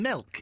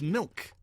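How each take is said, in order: First: The vowel sounds like the 'e' in 'bed'. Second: The vowel sounds like the 'i' in 'bit'. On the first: The speaker calls it wrong. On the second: The speaker calls it right.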